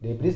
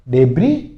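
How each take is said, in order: First: The word ends with an s sound. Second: The word ends without an s sound. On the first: The speaker calls it wrong. "डेब्रीज नहीं होता" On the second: The speaker calls it right. "डेब्री होता है"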